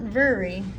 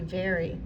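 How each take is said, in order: First: The first vowel sounds like 'er'. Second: The first vowel sounds like 'air'. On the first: The speaker calls it wrong. "Not very, because that's what it looks like" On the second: The speaker calls it right. "It's going to be very"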